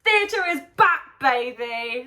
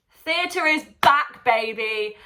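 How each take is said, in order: First: Far higher and louder shout, stretched out; bigger triumphant cheer. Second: Much higher, louder and slow, celebratory; whooping theatre is back; triumphant cheer. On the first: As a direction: belt it out even bigger. Repeat even bigger. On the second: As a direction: shout it like a victory cry. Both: Real, not acted.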